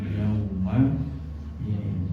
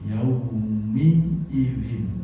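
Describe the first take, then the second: First: The m is followed by an a vowel. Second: The m is followed by an i vowel. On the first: The speaker calls it wrong. "bukan yauma idzin" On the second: The speaker calls it right. "Mimnya dibaca kasroh"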